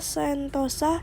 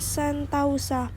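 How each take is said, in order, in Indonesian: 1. Suku kata kedua memiliki vokal o tunggal. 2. Suku kata kedua memiliki diftong au.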